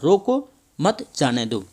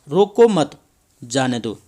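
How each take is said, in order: First: There is a short pause after 'roko'. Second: There is a short pause after 'mat'. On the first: Stop the person; do not let them go. "रोको के पश्चात, तब हम यहाँ पर थोड़ा सा विराम ले लेते हैं" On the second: Do not stop the person; let them go. "इस अल्प विराम को मत के पश्चात लगा देते हैं"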